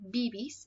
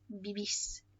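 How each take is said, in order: First: The stress is on the first syllable. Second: The stress is on the second syllable. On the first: The speaker calls it wrong. "rather than pronouncing it bibis" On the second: The speaker calls it right. "it tells you to put the emphasis there"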